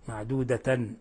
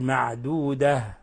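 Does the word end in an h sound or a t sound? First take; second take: t sound; h sound. First: The word ends without a final h sound. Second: The word ends with a soft h sound. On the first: The speaker calls it wrong. "ولا نقول معدودة" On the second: The speaker calls it right. "نقف عليها بالهاء"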